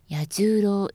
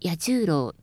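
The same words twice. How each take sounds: First: The middle of the name is not raised. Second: The middle of the name is high. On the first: The speaker calls it wrong. "ではなく" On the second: The speaker calls it right. "真ん中を高くして"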